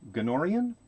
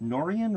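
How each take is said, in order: First: The name begins with a hard G sound. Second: The name begins with an N sound. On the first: "It's a hard G" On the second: "is that a silent G"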